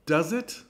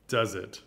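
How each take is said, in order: First: Does it? asked high with a rising pull on it; rising doubtful does it. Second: Does it? dropped low, weight on Does; knowing low reply; low falling does it. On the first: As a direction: tease the question upward. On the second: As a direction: answer your own question flatly. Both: Shown as a demonstration. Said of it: "repeated question".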